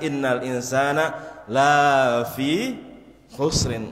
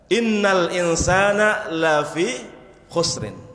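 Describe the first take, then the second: First: The vowel in 'la' is drawn out long. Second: The vowel in 'la' is held short. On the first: Humans are not in loss. The speaker calls it wrong. "Kalau dibaca panjang maka akan berubah maknanya" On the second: Humans are truly in loss. The speaker calls it right. "Lamnya di sini pendek, jangan dibaca pan panjang"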